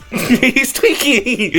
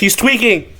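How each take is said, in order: First: Slow laughing repeat. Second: Said in the usual way. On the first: Real, not acted. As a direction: laugh through it, drawn out.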